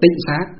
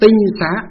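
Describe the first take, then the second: First: The first syllable has a low heavy tone. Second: The first syllable has a level tone. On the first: This is the reading used today. "nhưng bây giờ chúng ta đọc là tịnh xá" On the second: This is the old original reading. "ngày xưa nguyên âm của nó gọi là tinh xá"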